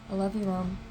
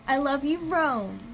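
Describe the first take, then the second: First: It is said in a plain, different way. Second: It is said in a cute, sweet way.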